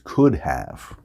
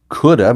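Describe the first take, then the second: First: The two words are said fully and separately. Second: The two words are blended into one reduced form.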